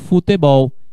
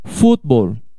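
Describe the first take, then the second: First: The stress falls on the last syllable. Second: The stress falls on the first syllable. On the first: This is the Portuguese pronunciation. "Em português, você fala futebol" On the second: This is the Spanish pronunciation. "Em espanhol, futebol"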